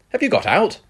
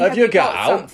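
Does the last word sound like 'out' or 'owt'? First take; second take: out; owt. First: The last word sounds like standard 'out'. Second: The last word sounds like dialect 'owt'. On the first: It asks whether someone was released from prison. The speaker calls it wrong. "you're making it sound like, have you got out of prison?" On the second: It asks whether someone has anything, such as drugs. The speaker calls it right.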